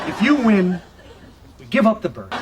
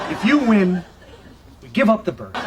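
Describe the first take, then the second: The two takes are said the same way.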